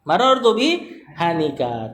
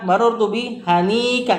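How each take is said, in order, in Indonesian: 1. Vokal setelah n dibaca pendek. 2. Vokal setelah n dibaca panjang. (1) "tanpa mat" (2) "Ini kalau kita bilang di asmaul sita"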